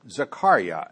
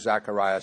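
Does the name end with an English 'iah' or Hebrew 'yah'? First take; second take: Hebrew yah; English iah. First: The name ends with a Hebrew 'yah' sound. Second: The name ends with an English 'iah' sound. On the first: "Zachariah would be the Hebrew pronunciation" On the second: "they're familiar with Zachariah, so we'll use the term Zachariah"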